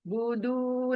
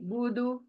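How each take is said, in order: First: The final vowel is drawn out long. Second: The final vowel is cut short quickly. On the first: The speaker calls it wrong. "बुदू नहीं" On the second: The speaker calls it right. "पेश एक है तो आवाज जल्दी रुक जानी चाहिए"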